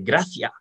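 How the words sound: The final s sound is dropped. "here sometimes I say gracia"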